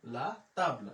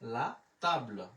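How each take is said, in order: Both takes have the same delivery.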